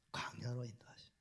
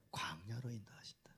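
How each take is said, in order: First: Same soft unvoiced whisper; repeated whisper. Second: Soft unvoiced whisper. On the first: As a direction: whisper it once more. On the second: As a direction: hush it like a secret. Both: Real, not acted. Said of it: "whispered answer".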